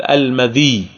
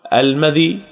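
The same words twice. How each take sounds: First: المذي as al-ma-dhiyy, kasra and doubled yā; second permissible form. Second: المذي ending light, with a short unstressed final ī; first permissible form. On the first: Teacher offers students the other reading, doubled yā. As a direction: lengthen the end of المذي into a heavy -iyy. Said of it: "ويجوز أن تقول". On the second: Teacher offers students one of two readings, light ending. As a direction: say المذي briefly, no doubled yā. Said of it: "يجوز أن تقول". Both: Shown as a demonstration.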